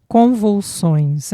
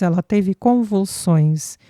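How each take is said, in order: First: "Convulsões" dita devagar, sílaba por sílaba, um pouco mais alta; palavra enfatizada. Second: Said in the usual way. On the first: A narrator's reading. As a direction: pronuncie "Convulsões" lentamente, com ênfase em cada sílaba. Rociane supplies the missing word. (Rociane completa a palavra que o pai esqueceu, devagar e enfática)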